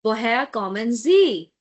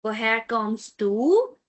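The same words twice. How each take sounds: First: "Woher kommen Sie?" with a falling tune on "Sie"; formal question. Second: "Woher kommst du?" with a rising tune on "du"; slow, ask a friend "Woher kommst du?", rising at the end; informal question. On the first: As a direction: ask a stranger politely "Woher kommen Sie?", falling at the end. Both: Shown as a demonstration.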